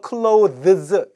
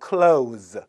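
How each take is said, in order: First: Clothes with the th fully voiced before the z; dictionary pronunciation. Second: Clothes said like "close", ending in z; th left silent. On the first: Teacher showing the dictionary form, clothes with full th. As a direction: say clothes carefully as "klo-thuhz", th sounded. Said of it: "이렇게 발음하라고 사전에 나와 있지만". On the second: Teacher showing native usage, clothes with th dropped. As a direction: say clothes as one drawn-out "klohz", no th. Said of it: "the 발음 안 하고". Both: Shown as a demonstration.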